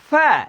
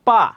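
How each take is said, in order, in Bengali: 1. এটা 'f' ধ্বনি দিয়ে শুরু, দাঁত ঠোঁটে লাগে। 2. এটা দুই ঠোঁট থেকে 'p' ধ্বনি দিয়ে শুরু। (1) "দাঁতটা আপনার ঠোঁটের এখানে লাগবে" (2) "এটা ভুল উচ্চারণ"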